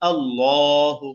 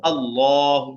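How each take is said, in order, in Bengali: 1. L ধ্বনিটি মোটা আর ভারী। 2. L ধ্বনিটি মোটা আর ভারী।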